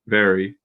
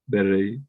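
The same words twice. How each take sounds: First: The R is a smooth English R. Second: The R is a quick tapped flap. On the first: The speaker calls it right. "You're very" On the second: The speaker calls it wrong. "you're not saying it's very, very or something like that"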